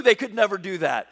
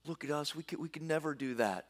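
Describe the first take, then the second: First: Said in the usual way. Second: Soft, defeated mock whimper; whining despair. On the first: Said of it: "And it's true". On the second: The fearful spies tell the people, hushed mock despair. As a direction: voice the spies giving up. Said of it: "they weep and wail".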